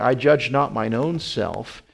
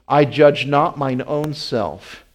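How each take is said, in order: First: It is read at a normal pace. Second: It is read more slowly.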